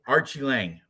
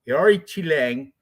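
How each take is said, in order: First: The name begins with an 'archie' sound. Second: The name begins with an 'ah-oh-ree' sound. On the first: The speaker calls it wrong. "people like to say" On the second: The speaker calls it right. "That's how his name is pronounced"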